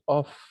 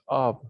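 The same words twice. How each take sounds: First: The word sounds like 'off'. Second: The word does not sound like 'off'. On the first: The speaker calls it wrong. "it's not of, like like you're turning something off" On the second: The speaker calls it right. "It's of"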